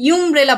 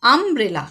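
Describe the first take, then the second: First: ইউমব্রেলা with a yoo sound at the start; wrong yoo sound. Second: আমব্রেলা with an open aa at the start; right aa sound. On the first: Teacher showing children the wrong way to say umbrella. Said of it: "আমরা কিন্তু ইউমব্রেলা বলি না". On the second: Teacher giving children the right way to say umbrella. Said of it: "কি বলি?". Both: Shown as a demonstration.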